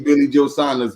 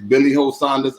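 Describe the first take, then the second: First: The J in Joe is an English J sound. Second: The J in Joe is an H sound. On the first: "My paperwork does not say" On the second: "My paperwork says"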